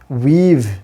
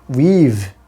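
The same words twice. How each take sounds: First: The vowel is long and full. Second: The vowel is long and full.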